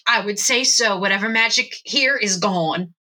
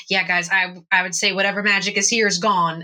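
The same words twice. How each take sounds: First: Slightly raised character voice; measured, mistaken voice for a party member; wrong Zach voice. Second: Casual character voice near the speaker's own; easy, quicker delivery for a party member; Zach. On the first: Game master slipping into another voice for Zach, measured. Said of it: "that's not Zach's voice". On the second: Zach agreeing the magic is gone, casual character voice. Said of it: "says in the correct voice". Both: Acted.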